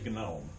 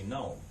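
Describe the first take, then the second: First: The G is sounded before the N. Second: The G is silent before the N. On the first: The speaker calls it wrong. "we don't say gnome" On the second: The speaker calls it right. "we say we say gnome"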